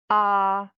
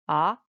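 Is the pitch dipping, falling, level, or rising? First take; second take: level; rising. First: The pitch stays high and level. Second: The pitch rises from middle to high. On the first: "The first tone" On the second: "it's definitely a rise tone"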